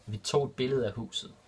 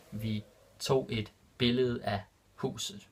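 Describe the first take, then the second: First: Said in the usual way. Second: Vi tog et billede af huset drawn out slowly; slow and clear. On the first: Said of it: "repeated slower". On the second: Shown as a demonstration. Teacher repeating the Danish example for learners, slow and clear. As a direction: stretch it out so learners follow. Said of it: "repeated slower for learners".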